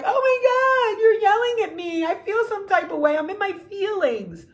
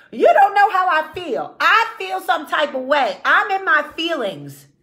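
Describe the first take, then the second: First: Much higher, squeaky, overdramatic hurt; hammed-up wounded woman. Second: Higher and louder, a hammed-up wounded rant; mock emotional outburst. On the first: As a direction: play a woman crushed by one small remark. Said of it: "we're like". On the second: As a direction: play the woman demanding her feelings count. Mocking women's emotional outbursts.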